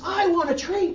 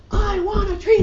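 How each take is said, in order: First: Put-on high, loud little-girl yell; tantrum yell. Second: Put-on very high, very loud screaming child; tantrum scream. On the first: Angry girl yelling at her teacher for a treat, a high loud yell. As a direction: yell it like a kid losing her temper. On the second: Furious girl screaming at her teacher while stomping, very high and very loud.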